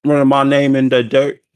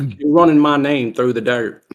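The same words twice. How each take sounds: First: Loud, higher Southern indignation; mock Southern accent. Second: Loud, higher affronted Southerner; hammed-up Southern indignation; mock Southern accent. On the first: Sibling parroting his brother's complaint, mock Southern accent. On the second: Brother protesting his name is slandered, mock Southern accent.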